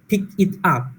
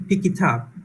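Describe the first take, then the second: First: The words are said separately, without linking. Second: The words run together, consonants linked to vowels.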